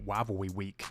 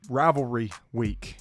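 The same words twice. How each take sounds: First: It is said fast, sounding like Elmer Fudd. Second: It is said in his normal voice.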